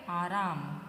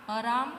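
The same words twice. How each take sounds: First: "आराम" as AA-raam, both vowels long; lower, falling "आराम" with long first a; correct pronunciation. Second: "आराम" with short first a, uh-RAAM; rising "आराम", first vowel cut short; misspelt option. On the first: Teacher gives the answer, correct long-vowel "आराम". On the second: Teacher reads out a wrong option, "आराम" with a short first vowel. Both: Shown as a demonstration. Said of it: "इसमें से कौन सा है correct".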